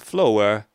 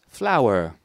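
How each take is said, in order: First: The first vowel is not an 'ow' sound. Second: The first vowel is an 'ow' sound. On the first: The speaker calls it wrong. "But it's not flower" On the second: The speaker calls it right. "it's flower"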